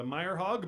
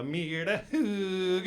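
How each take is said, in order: First: Said in the usual way. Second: Myhre Hauge said the Norwegian way, as at home; Norwegian way of saying the name. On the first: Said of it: "at home in Norway, they say". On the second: Shown as a demonstration. Comic explains his name, then Norwegian pronunciation. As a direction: say Myhre Hauge the way they do in Norway. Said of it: "they say".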